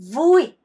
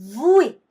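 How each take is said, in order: Both takes have the same delivery.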